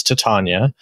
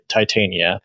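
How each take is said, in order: First: Titania said tih-TAHN-yuh; agreed pronunciation. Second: Titania said tie-TAY-nee-uh; disputed pronunciation. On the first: Co-host gives the Shakespeare pronunciation, Titania as tih-TAHN-yuh. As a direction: say Titania with short first vowel and broad "TAHN". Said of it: "I think the agreed upon pronunciation is". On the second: Co-host shows what others argue, Titania as tie-TAY-nee-uh. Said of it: "people who argue that it's". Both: Shown as a demonstration.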